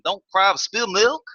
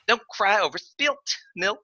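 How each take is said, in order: First: It is said fast in a hard-to-follow regional accent. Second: It is said in a posh Valley Girl accent. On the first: "it came out so fast" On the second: "bougie impression"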